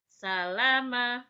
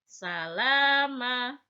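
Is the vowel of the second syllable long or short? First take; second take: short; long. First: The second syllable has a short vowel. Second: The second syllable has a long vowel. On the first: "kata salama tidak ada yang panjang" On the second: "la-nya harus dibaca panjang dua harakat"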